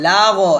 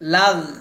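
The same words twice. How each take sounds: First: The final gh ends with an echoing bounce. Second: The final gh ends smoothly without a bounce. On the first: The speaker calls it wrong. "লাগ লাগ এটা করা যাবে না, কারণ গইন কিন্তু কলকলা হরফ না" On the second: The speaker calls it right. "লাগ লাগ এভাবে"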